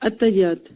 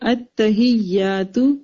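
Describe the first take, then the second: First: The word ends on a consonant, without final vowel. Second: The word ends with a final u vowel. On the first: The speaker calls it wrong. "ہم کیا بولتے ہیں؟" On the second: The speaker calls it right. "اس کا پروناؤنسیشن ہے، آپ پڑھیں میرے ساتھ"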